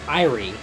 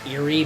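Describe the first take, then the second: First: The first vowel sounds like 'eye'. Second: The first vowel does not sound like 'eye'. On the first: The speaker calls it right. "A E from the original Latin is pronounced as an I" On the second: The speaker calls it wrong. "Some people pronounce that Erie"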